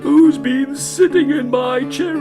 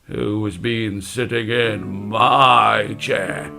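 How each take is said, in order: First: It is said in a crying voice. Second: It is said in a deep, gruff voice. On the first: "he started to cry" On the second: "in his deep gruff voice"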